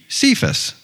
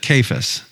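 First: The name begins with a soft S sound. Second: The name begins with a hard K sound. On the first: The speaker calls it wrong. "I have always pronounced it Cephas, because that's what it looks like" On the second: The speaker calls it right. "we're supposed to pronounce it Cephas"

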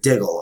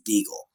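First: The first vowel is a short 'i' sound. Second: The first vowel is a long 'ee' sound. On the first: This is how the spelling would suggest saying it. "So that you would phonetically pronounce it Diggle" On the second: This is how the family traditionally says the name. "He always pronounced it as Deagle"

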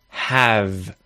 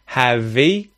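First: The word ends cleanly on the v consonant. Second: An extra vowel sound is added after the v. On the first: The speaker calls it right. "we effectively have a consonant sound at the end" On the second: The speaker calls it wrong. "you're adding that E sound to it"

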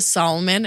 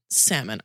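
First: The L in the word is pronounced. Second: The L in the word is silent. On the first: The speaker calls it wrong. "say either salmon with the L" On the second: The speaker calls it right. "oh God"

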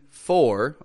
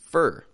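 First: The word has a full, clear 'or' vowel. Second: The word has a flat, reduced 'er' vowel. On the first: "It can be for" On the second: "or it can be fur"

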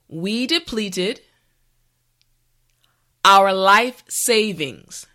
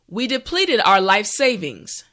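First: The sentence is spoken slowly and carefully. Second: The sentence is spoken at a regular speed. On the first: "this time repeat after me" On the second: "the last time at a regular pace"

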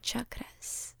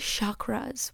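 First: The word is said with its original-language pronunciation. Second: The word is said with an anglicized pronunciation. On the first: The speaker calls it right. "That sounds so much more not even spiritual, just like correct" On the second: The speaker calls it wrong. "why say chakras"

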